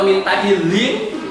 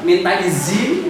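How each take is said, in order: First: The word izin is said with a j sound. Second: The word izin is said with a z sound. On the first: "Malah ada yang pakai J" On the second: "pakai Z"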